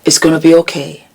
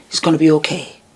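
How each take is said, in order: First: Fast, firmer it's gonna be okay; quicker reassurance. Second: Quiet, tender it's gonna be okay; soft reassurance. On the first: Urging her younger self on, quick and firm. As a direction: push the comfort out quickly. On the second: Reassuring her younger self, softly and tenderly. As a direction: say it gently to a frightened child. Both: Retold or imitated. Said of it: "I would have wanted somebody to tell me".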